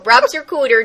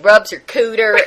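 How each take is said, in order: First: It is spoken in a Minnesota accent. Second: It is spoken in a rural hillbilly accent. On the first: "a nice Minnesota girl" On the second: "maybe she was a hillbilly"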